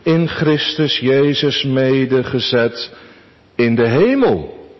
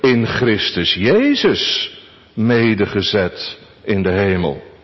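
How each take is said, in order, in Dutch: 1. De klemtoon valt op het woord hemel. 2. De klemtoon valt op Christus Jezus. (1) "Onze eerste gedachte" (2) "En onze vierde gedachte"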